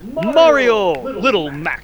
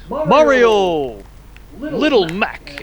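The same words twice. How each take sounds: First: The two names run together without pause. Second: There is a pause between the two names.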